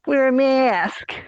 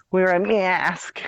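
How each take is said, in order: First: Shrill mock nag. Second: High, slow mocking Wear a mask; sing-song taunt of a nagging voice; mock nag. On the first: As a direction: screech it like a panicked scold. Mocking pandemic panic. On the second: Host mocking mask rules, high slow taunt.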